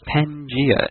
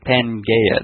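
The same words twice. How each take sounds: First: The middle syllable does not sound like 'gay'. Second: The middle syllable sounds like 'gay'. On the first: The speaker calls it right. "Pangea is the only correct pronunciation" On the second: The speaker calls it wrong. "Not Pangea. That would be the all gayness"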